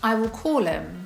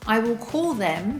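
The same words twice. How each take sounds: First: The th in 'them' is dropped. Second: The th in 'them' is clearly pronounced.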